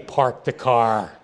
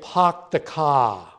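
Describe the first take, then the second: First: The r sounds are clearly pronounced. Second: The r sounds are dropped, Boston style. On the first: "They can't say" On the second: "There they say"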